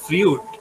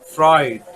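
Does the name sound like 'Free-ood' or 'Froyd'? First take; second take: Free-ood; Froyd. First: The name is said as two syllables, 'free-ood'. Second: The name is said as one syllable, 'froyd'. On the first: The speaker calls it wrong. "It's not ফ্রিউড" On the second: The speaker calls it right. "It's ফ্রয়েড"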